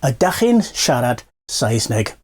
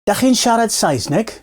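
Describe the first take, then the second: First: The first word is said in full. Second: The first word is shortened, dropping its start. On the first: This is the standard full form. "the phrase is" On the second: This is how people say it on the street. "people tend to shorten things, so you might just hear"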